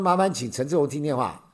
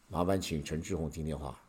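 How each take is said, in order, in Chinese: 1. 声音是正常音高。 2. 声音压得更低、更沉。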